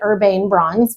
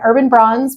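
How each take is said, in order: First: The first word ends with a long 'ane' syllable. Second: The first word ends with a short, weak syllable. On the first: "Some people pronounce it Urbane Bronze because there's an E on the end of it" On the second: "I've done Urban Bronze"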